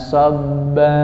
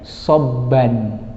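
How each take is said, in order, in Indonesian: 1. Kata ini berakhir dengan vokal a yang dipanjangkan. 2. Kata ini berakhir dengan bunyi n. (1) "menjadi fathah, tapi syaratnya harus dipanjangkan" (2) "Bagian mana yang paling sering Bapak dengar kesalahan? Yaitu bagian akhir dibaca soban"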